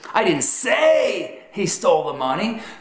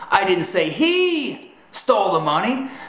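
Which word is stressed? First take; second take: say; he. First: The stress falls on the word 'say'. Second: The stress falls on the word 'he'. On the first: The speaker implied it without saying it. "communicates that you communicated he stole the money in a manner other than verbal" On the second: Someone other than him stole the money. "that's telling them that perhaps it was her or them that stole the money"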